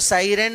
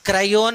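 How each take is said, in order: First: The name begins with an S sound. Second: The name begins with a K sound. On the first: "సైరన్ అని పిలుస్తారు" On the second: "క్రయోన్ అని పిలుస్తారు"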